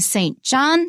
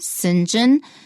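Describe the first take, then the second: First: It is said as two full words. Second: It is blended into one short word, sinjin. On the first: "Saint John here" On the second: "pronounced Sinjin"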